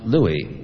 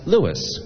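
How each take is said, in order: First: The name ends without an s sound. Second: The name ends with an s sound. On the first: The speaker calls it wrong. "not Louis" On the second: The speaker calls it right. "it's pronounced Louis, because his name was originally spelled L-E-W-I-S"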